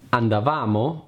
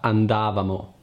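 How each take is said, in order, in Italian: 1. L'accento cade sulla terza sillaba. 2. L'accento cade sulla seconda sillaba. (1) "Andavamo non si pronuncia" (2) "non si pronuncia andavamo"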